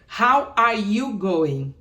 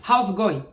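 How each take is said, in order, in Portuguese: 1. Cada palavra da frase é dita por completo. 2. As palavras são espremidas juntas numa forma abreviada. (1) "tem uma expressão, gente, aqui, que é How are you going?" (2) "Eles falam How's going?"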